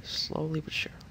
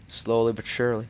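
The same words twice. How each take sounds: First: Whisper. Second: Said in the usual way. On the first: Pretend. Repeats phrase in shifting voices.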